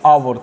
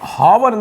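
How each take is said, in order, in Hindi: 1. यह शब्द स्वर की आवाज़ से शुरू होता है। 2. यह शब्द h की आवाज़ से शुरू होता है। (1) "क्या बोलते हैं, आवर" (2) "हावर नहीं बोलते हैं"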